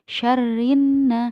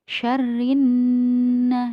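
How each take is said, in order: First: The nasal n sound is cut short. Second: The nasal n sound is held long. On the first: The speaker calls it wrong. "tidak hanya syarrin" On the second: The speaker calls it right. "tetapi syarrin, ditahan dulu"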